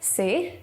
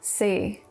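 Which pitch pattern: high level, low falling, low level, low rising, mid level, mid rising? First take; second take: mid rising; low falling. First: The pitch rises from mid to high. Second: The pitch falls from low to very low. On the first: "Two is medium rising tone" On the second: "Four is low falling tone"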